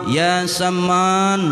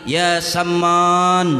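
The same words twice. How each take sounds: Both takes have the same delivery.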